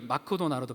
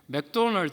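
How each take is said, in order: First: It is said with a Japanese accent. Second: It is said with a Korean accent. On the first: "일본 분들은 좀 발음이 달라요" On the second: "우리는 father이라고 발음하는데"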